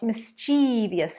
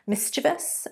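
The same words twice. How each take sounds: First: The stress is on the second syllable. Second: The stress is on the first syllable. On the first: The speaker calls it wrong. "not mischievous. It's on the second there" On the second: The speaker calls it right. "the syllable stress is on the first"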